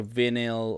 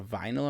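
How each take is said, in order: First: "vinyl" with a short i, VIN-il; first syllable of vinyl rhymes with "pin"; unsure pronunciation. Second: "vinyl" with a long i, VY-nul; first syllable of vinyl rhymes with "pine"; alternative pronunciation. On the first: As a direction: say vinyl as "vinnel", first vowel as in "win". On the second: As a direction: say vinyl with first vowel as in "wine". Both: Shown as a demonstration. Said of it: "I don't know how you, you pronounce it".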